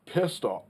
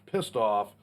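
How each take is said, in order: First: Hiccup breaking the words; talking through a hiccup. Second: Said in the usual way. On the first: Real, not acted. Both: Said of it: "excuse me, I got the hiccups".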